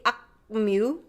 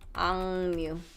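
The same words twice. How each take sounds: First: The first syllable ends in a K sound. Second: The first syllable ends in an NG sound. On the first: "it's hard to say 악뮤" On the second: "It becomes soft. 앙"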